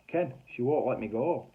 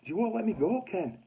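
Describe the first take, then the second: First: Said in the usual way. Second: Much higher-pitched, exasperated repeat; pleading insistence. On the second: Retold or imitated. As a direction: insist to a boss who won't believe it. Repeats it to disbelieving boss.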